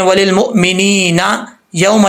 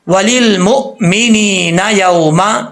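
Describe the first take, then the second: First: It stops after mumineena before continuing. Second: It runs smoothly without a stop after mumineena. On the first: The speaker calls it wrong. "ऐसे नहीं पढ़ाना" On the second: The speaker calls it right. "वो मिला के पढ़े"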